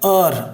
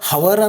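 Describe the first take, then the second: First: The word begins with a vowel sound. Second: The word begins with an h sound. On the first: The speaker calls it right. "ಎಚ್ silent ಆದ್ರೆ ಅರ್" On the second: The speaker calls it wrong. "ನಾವು ಹವರ್ ಅಂದ್ಬಿಡ್ತೀವಿ, but ಅದು ಹವರ್ ಅಂತಲ್ಲ"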